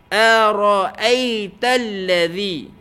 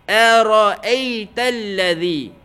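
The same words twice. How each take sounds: The two takes are said the same way.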